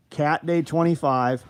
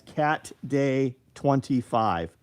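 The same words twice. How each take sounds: First: Cat Day twenty-five punched louder and slower; slow and emphatic, Cat Day twenty-five; emphatic code. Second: Each word said slowly and clearly; slow, deliberate read of Cat Day twenty-five; slow code read-out. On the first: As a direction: drive the code home, louder. Repeating the discount code. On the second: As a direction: spell out the code slowly for viewers. Spelling out the discount code. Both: Shown as a demonstration.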